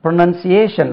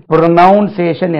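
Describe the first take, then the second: First: ப்ரொனன்சியேஷன் with "nun", not "noun"; ப்ரொனன்சியேஷன், modelled with falling end; correct pronunciation. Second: ப்ரொனவுன்சியேஷன் with a heavy "NOUN"; ப்ரொனவுன்சியேஷன், the common mistake demonstrated; wrong pronunciation. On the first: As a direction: say ப்ரொனன்சியேஷன் as "pro-nun-see-AY-shun". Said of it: "உச்சரிப்பு எப்படி?". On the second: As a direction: say ப்ரொனவுன்சியேஷன் as "pro-NOUN-say-shun". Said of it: "என்று உச்சரிக்க கூடாது". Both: Shown as a demonstration.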